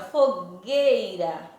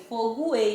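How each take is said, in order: First: The g is followed directly by the e. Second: A 'u/w' sound is heard after the g. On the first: The speaker calls it right. "eu não pronunciei o som do U" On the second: The speaker calls it wrong. "eu não pronunciei fogoeira"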